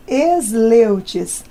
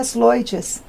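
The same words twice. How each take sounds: First: "Esleutes" slowly, with an E before SL; Brazilianized surname pronunciation. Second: "Sloites" slowly, starting straight on SL; original surname pronunciation. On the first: Deputy gives her surname as Brazilians say it, Brazilianized "Esleutes", drawn out. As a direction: say "Esleutes" the Brazilian way, opening on an added E. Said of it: "abrasileiramos. Ficou Esleutes".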